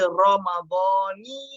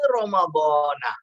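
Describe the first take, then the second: First: The word ends with a final 'ni' sound. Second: The word ends with a final 'na' sound. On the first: The speaker calls it right. "Yang betul, ... Ramadhani ... Dibaca ni bukan nah" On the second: The speaker calls it wrong. "Yang ada dalam upin-ipin tu salah lah"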